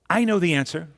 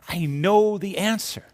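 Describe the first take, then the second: First: The voice sounds sure and eager. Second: The voice sounds delighted and excited. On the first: The speaker is sure of the answer. "It can relate certainty" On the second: The speaker has just discovered the answer. "It can express the joy of discovery"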